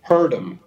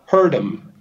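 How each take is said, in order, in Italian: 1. La th cade e la d resta. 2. La th cade e la d resta.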